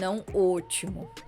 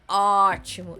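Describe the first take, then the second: First: The first vowel is closed. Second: The first vowel is open. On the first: The speaker calls it wrong. "e não" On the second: The speaker calls it right. "a pronúncia é ótimo"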